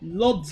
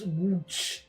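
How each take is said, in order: First: The name begins with an L sound. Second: The name begins with a W sound. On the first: "it looks like Lodz. Lodz like lots of money" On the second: "apparently pronounced Wooch"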